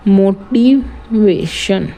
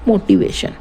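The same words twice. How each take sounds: First: मोटिवेशन slow and lower, broken into मो-टि-वे-शन; syllable by syllable. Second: Said in the usual way. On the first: Shown as a demonstration. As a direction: spell out मोटिवेशन beat by beat, slowly. (मोटिवेशन को धीरे-धीरे तोड़कर, मो-टि-वे-शन) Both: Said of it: "इसमें कितने syllable हैं".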